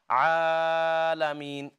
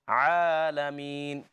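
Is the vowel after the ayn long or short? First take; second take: long; short. First: The vowel after the ayn is drawn out long. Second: The vowel after the ayn is held one count. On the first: The speaker calls it wrong. "don't make it uh, make the ayn too long. It's not alamin" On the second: The speaker calls it right. "It's just one count"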